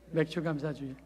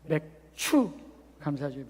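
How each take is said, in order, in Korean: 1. 두 번째 음절은 예사 'j' 소리로 시작해요. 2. 두 번째 음절은 거센 'ch' 소리로 시작해요. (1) "맥주 감사 주일이 아니라" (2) "발음 잘해야 돼. ... 맥추 감사 주일"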